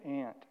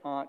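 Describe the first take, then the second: First: The vowel is flat, as in 'cat'. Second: The vowel is broad, as in 'father'. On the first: It names an insect. The speaker calls it wrong. "that's something that crawls along the ground" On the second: It names a relative. The speaker calls it right. "It took me 30 years to say aunt"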